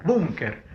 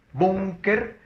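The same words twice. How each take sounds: First: Said in the usual way. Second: Syllable by syllable. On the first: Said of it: "Siguiente palabra". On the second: Shown as a demonstration. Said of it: "Búnker es grave".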